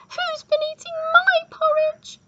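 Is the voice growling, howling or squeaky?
squeaky. It is said in a squeaky voice.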